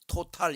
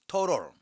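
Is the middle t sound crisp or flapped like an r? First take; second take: crisp; flapped. First: The middle t is a crisp t sound. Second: The middle t is flapped like an r. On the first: "토탈 이렇게 하지 않고" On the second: "미국 사람들은 T 발음을 R 발음으로 해요"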